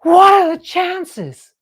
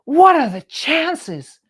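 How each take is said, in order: First: High, loud, slow astonished cry; amazed. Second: Slow, high, loud amazed marvel. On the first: Man seeing the company tote bag, loud amazed cry. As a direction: marvel at the coincidence, drawn out. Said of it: "And he goes". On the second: Man spotting their tote bag in Manhattan, slow amazed exclaim. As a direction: draw it out in wonder. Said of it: "and he goes". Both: Retold or imitated.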